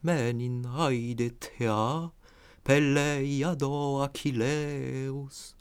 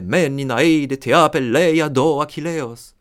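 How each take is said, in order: First: It is read smoothly, letting the vowels sound musically. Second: It is read with heavy, German-style stress beats. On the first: The speaker calls it right. "à faire entendre cette musicalité des voyelles" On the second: The speaker calls it wrong. "Nietzsche déplorait qu'on applique cette diction allemande au grec ancien. Comme si on disait"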